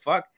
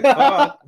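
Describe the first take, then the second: First: Said in the usual way. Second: High, loud, laughing fuck; laughing mock curse. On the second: Retelling his shock at her offer, a high laughing Fuck. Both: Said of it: "I was like".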